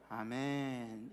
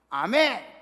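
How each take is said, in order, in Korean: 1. 약하게, 힘이 거의 없이 말합니다. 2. 힘차게, 강한 힘을 담아 말합니다. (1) "아멘 이렇게 하면 어떡해요?" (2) "딱 이렇게 나와야죠. 힘차게"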